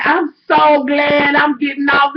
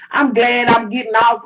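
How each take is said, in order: First: Slow, drawn-out mock whine; mocking sing-song of the clerk. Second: Said in the usual way. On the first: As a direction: drag it out like a smug clerk. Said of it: "I'm telling y'all how this bitch came". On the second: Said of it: "This bitch do".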